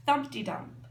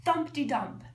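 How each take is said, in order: Both takes have the same delivery.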